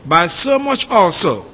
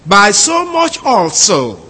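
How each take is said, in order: First: Said in the usual way. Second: Slow, careful reading of the literal Greek. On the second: Shown as a demonstration. Teacher reading the Greek literally to the class, slow and deliberate. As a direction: spell the phrase out slowly, word by word. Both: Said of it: "from the Greek".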